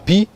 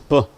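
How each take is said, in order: First: It is said as the full letter name. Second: It is said as a short bare consonant. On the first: "The letter is letter p" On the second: "but the sound is p"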